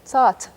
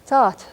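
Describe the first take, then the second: The two takes are said the same way.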